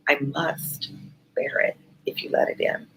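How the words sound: The word must is lightly stressed.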